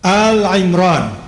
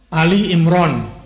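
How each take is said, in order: First: The first word is the single syllable Al. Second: The first word is the two-syllable Ali. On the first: It means the family of Imran. The speaker calls it right. "itu pengucapan yang benar" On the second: It sounds like a person named Ali. The speaker calls it wrong. "salah sebetulnya"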